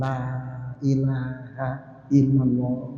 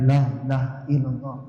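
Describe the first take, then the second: First: The phrase is said slowly and clearly. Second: The phrase is said quickly and slurred. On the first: The speaker calls it right. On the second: The speaker calls it wrong.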